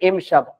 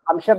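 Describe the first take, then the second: First: The word begins with an 'i' vowel. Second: The word begins with an 'a' vowel. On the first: The speaker calls it right. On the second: The speaker calls it wrong. "हम शब्द नहीं"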